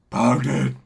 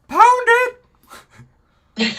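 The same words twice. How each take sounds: First: It is said in a deep Batman-like voice. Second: It is said in a high childlike voice.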